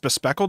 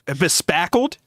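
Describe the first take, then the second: First: The second syllable has the vowel of 'speck'. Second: The second syllable has the vowel of 'pack'. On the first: The speaker calls it wrong. "You don't think it's pronounced bespeckled?" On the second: The speaker calls it right. "You think it's pronounced bespackled?"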